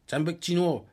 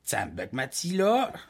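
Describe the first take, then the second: First: It is said in the Uashat dialect. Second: It is said in the Pessamit dialect.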